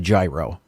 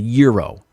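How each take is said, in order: First: The word begins with a hard G sound. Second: The word begins without any G sound. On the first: The speaker calls it wrong. "learned not to call this a gyro" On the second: The speaker calls it right. "you pronounce this uh, without the G, really"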